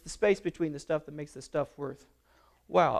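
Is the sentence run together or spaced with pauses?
run together. The words run together with no pauses. The speaker calls it wrong. "with no space, with no breath"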